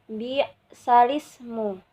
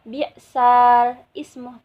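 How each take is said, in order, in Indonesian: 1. Ismu dibaca menyambung dengan kata sebelumnya. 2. Ismu dibaca terpisah dengan vokal awalnya sendiri. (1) "tapi bi bi'salismu" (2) "bukan bi'sal ismu"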